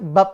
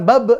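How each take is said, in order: First: The final b stops plainly without bouncing. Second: The final b ends with a bouncing release. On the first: "tapi kan bab doang" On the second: "kan bukan bab"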